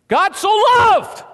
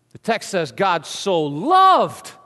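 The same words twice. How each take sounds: First: High, loud "loved" ringing out; triumphant preacher's high "loved"; stress on loved. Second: "loved" slow and firm; measured restatement landing on "loved"; calm emphatic close; slow deliberate stress. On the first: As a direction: proclaim "loved" at full voice. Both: Shown as a demonstration.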